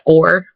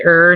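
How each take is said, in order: First: The vowel is full, sounding like 'or'. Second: The vowel is reduced, sounding like 'er'. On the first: "not or" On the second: "Michiganders tend to say er"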